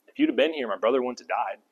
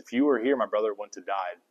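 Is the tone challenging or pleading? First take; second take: challenging; pleading. First: It sounds challenging and accusing, like Martha. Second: It sounds humble and grieving, like Mary.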